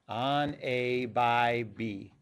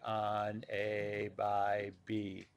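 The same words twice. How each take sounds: First: It is said in a normal voice. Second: It is said in a hypnotized zombie-like drone.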